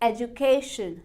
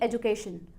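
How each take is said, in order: First: The stress falls on the third syllable. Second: The stress falls on a different syllable. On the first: The speaker calls it right. "के ई वाई के ऊपर हमें stress देना है" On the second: The speaker calls it wrong. "ना कि"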